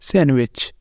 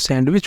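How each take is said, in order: First: The d sound is left out entirely. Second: The d sound is pronounced in the middle. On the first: The speaker calls it right. "यहाँ पर डी silent होता है" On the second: The speaker calls it wrong. "तो आप इसे गलत बोल रहे हैं"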